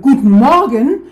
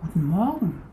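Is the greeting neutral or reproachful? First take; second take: reproachful; neutral. First: It is said sharply, like a reproach. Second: It is said as a plain, neutral greeting.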